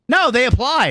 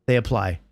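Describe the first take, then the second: First: "No" hit higher and louder, then "they apply"; firm emphatic correction; insistent correction. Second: Said in the usual way. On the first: Shown as a demonstration. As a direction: push "No, they apply" back hard.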